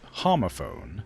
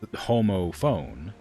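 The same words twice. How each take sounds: First: The first syllable differs from 'Homo' in Homo sapiens. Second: The first syllable matches 'Homo' in Homo sapiens. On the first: "I pronounce it differently" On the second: "which is clearly, like"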